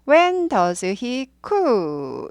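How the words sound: The pitch falls at the end. The speaker calls it right. "이렇게 내리는 거예요"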